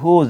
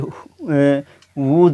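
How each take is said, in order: First: The word begins with an h sound. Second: The word begins with a w sound. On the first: The speaker calls it right. "बल्कि होज है" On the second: The speaker calls it wrong. "ये वूज नहीं"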